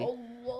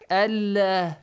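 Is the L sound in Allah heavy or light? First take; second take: heavy; light. First: The L is heavy, deep and full. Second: The L is light, thin and clear.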